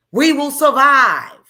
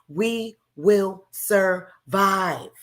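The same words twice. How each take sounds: First: We will survive shouted much louder, stress on We; loud defiant vow. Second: We will survive, every word slow and weighted, will stressed; slow stated vow. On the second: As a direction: say We will survive slowly, leaning on will. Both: Real, not acted.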